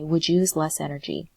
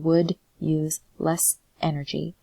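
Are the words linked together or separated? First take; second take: linked; separated. First: The words run together, final consonants linked. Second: Each word is said separately, without linking. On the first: "you would say" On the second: "instead of saying"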